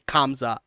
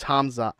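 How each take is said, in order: First: The name begins with a K sound. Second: The name begins without a K sound. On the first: The speaker calls it wrong. "you don't say Kamza" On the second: The speaker calls it right. "it's Hamza. The K is silent"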